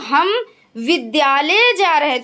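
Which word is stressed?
विद्यालय. The stress is on the word विद्यालय. It is to school that we are going. "विद्यालय पर बल"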